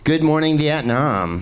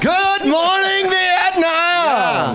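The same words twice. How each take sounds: First: The phrase is said at a calm volume. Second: The phrase is yelled loudly and energetically. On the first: "It's hard to say it without yelling" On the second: "I almost did it"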